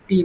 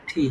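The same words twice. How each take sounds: First: Said in the usual way. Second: "ঠি" with a puff of air after the t; aspirated T. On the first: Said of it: "টি এর উচ্চারণ আমরা ভুল পড়তাম". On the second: Shown as a demonstration. Teacher corrects the letter T, "ঠি" with aspirated start. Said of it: "টি উচ্চারণ হবে ঠ".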